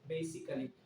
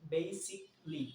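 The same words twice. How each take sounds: First: The ending is said as a full 'ally'. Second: The ending is said as a short 'lee'. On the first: The speaker calls it wrong. "আমরা এটা অনেকেই pronounce করি যে basically" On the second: The speaker calls it right. "instead of basically you could say basically, Lee, Lee"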